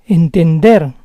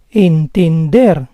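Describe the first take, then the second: First: Said in the usual way. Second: Entender split as en-ten-DER; syllable by syllable. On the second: Shown as a demonstration. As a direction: say Entender in parts, stressing DER. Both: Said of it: "the stress is on the last syllable".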